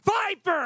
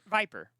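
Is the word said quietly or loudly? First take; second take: loudly; quietly. First: The word is said loudly, with more energy. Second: The word is said at normal, quiet volume.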